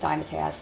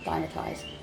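First: The last syllable sounds like 'taz'. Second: The last syllable sounds like 'tize'. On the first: The speaker calls it wrong. "It's not Dimetaz" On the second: The speaker calls it right.

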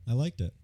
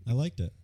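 Both takes have the same delivery.

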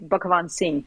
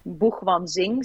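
First: The name is pronounced in its original Indian way. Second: The name is pronounced as Dutch speakers read it. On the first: This is the name's original pronunciation. "the real pronunciation is actually Buchwanzing" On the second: This is how it is read from the spelling. "the Dutch people say basically Buchwanzing, so the way it's written"

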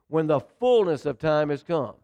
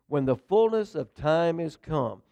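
First: It is said forcefully, with strong conviction. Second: It is said plainly, without special force.

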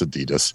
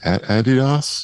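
First: It is said with an American pronunciation. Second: It is said with a British pronunciation. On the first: "so for us" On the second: "Brits pronounce Adidas difference"

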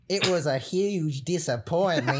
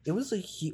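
First: It is said in a put-on Nebraska accent. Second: It is said in her normal accent.

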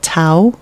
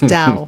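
First: The word begins with a T sound. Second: The word begins with a D sound. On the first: The speaker calls it wrong. "I'm pronouncing it wrong" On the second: The speaker calls it right. "It's Dao"

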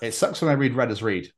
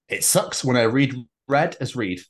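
First: The line is read at a fast pace. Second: The line is read at a slower pace.

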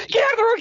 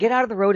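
First: It is said urgently and forcefully. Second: It is said calmly, without urgency.

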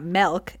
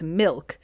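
First: The vowel sounds like 'eh', as in melk. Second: The vowel sounds like 'ih', as in milk. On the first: The speaker calls it wrong. "not M-E-L-K, not milk" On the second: The speaker calls it right. "It's M-I-L-K"

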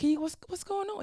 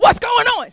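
First: The question sounds sincere and open. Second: The question sounds angry and frustrated. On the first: The speaker genuinely wants to understand. The speaker calls it right. "You don't say, hey, God, what's going on?" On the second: The speaker is upset and blaming. The speaker calls it wrong. "You say, well, what's going on? See, it's difference in spirit"

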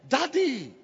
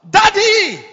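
First: It is called out softly. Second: It is shouted loudly.

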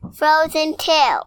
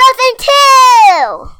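First: It is said more quietly. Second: It is said very loudly.

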